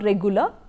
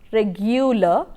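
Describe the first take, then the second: First: It is said without a y sound after g. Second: It is said with a y sound after g. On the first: The speaker calls it wrong. "It's not regular" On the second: The speaker calls it right. "Y is included"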